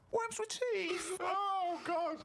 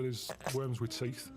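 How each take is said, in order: First: Very high, very slow mocking announcement; mock dramatic reveal. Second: Said in the usual way. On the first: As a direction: drag out 'Worms with teeth' in a high teasing voice. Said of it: "I'll get her attention at some point".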